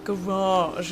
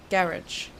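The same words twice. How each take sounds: First: "Garage" the American way, last syllable rhymes with "mirage"; garage our way. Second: "Garage" said GA-ridge, stress on the first syllable, ending in a hard dj; "Garage" the British way, ending like "ridge". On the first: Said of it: "is how we say it". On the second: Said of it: "Garage is how we say". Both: Shown as a demonstration.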